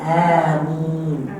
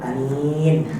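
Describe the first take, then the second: First: The vowels are drawn out long. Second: The vowels are short and clipped. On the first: It asks that the prayer be accepted. The speaker calls it right. "Yang betul adalah amin" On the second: It means trustworthy. The speaker calls it wrong. "Biasanya kita jawab macam tu"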